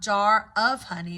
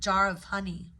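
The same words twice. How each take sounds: First: The words are said separately, one by one. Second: The words are linked smoothly together. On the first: The speaker calls it wrong. "not jar of honey" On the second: The speaker calls it right. "but jar of honey"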